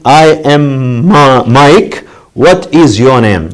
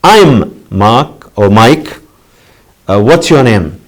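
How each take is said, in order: First: Every word said fully and slowly, I am stressed; teacher demoing the full form, each word separate; full form, spelled out. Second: I'm and what's run together and contracted; short form. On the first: Teacher to class, slow careful full form. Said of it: "the full form". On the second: Teacher to students, showing the contracted form. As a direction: squeeze "I'm" into one quick syllable. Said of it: "In the short form". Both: Shown as a demonstration.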